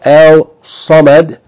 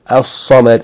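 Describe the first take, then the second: First: An L sound is heard before the s. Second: The L merges into a doubled s sound. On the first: The speaker calls it wrong. "Instead of al-samad" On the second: The speaker calls it right. "we're going to say al-samad"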